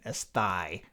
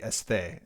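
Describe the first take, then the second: First: It is said with American seminary pronunciation. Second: It is said with modern Greek pronunciation. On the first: "for all you American seminary students" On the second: "if I'm going with modern Greek pronunciation"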